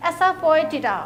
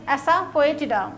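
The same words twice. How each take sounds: First: Said in the usual way. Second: Asafoetida said very slowly, syllable by syllable; a teacher slowly modelling asafoetida for practice; careful pronunciation. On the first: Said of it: "बोलने में बहुत सारे लोग confuse हो जाते हैं". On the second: Shown as a demonstration. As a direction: spell out asafoetida slowly so students can copy each sound. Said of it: "इसकी pronunciation आप ध्यान से प्रैक्टिस कीजिएगा".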